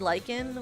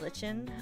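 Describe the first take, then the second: First: The name has no 't' sound in the middle. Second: The name has a 't' sound in the middle. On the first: The speaker calls it right. "it's Lycan, right?" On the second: The speaker calls it wrong. "when I used to call her Lemmy Lichen"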